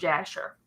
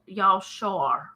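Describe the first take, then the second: First: The name starts with a J sound. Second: The name starts with a Y sound. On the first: The speaker calls it wrong. "I actually just pronounced that wrong" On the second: The speaker calls it right. "is pronounced Yalshar"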